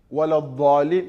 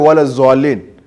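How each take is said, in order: First: The second word has no z sound. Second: The second word begins with a z sound. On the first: The speaker calls it right. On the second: The speaker calls it wrong.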